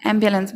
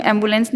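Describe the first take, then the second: First: एम्बुलेंस as "AM-byuh-luhns"; teacher's model "AM-byuh-luhns"; corrected pronunciation. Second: एम्बुलेंस as "em-bu-lens"; the mistaken "em-bu-lens"; wrong way shown. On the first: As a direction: say एम्बुलेंस with "byuh" and a weak last syllable. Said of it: "एम्बुलेंस बोलेंगे". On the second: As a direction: say एम्बुलेंस with a plain bu and clear "lens". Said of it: "नहीं बोलेंगे हम". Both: Shown as a demonstration.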